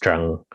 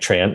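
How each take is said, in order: First: The name is said with Vietnamese pronunciation. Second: The name is said with English pronunciation. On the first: "in Vietnamese is pronounced Trăng" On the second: "doesn't sound anything like Tran"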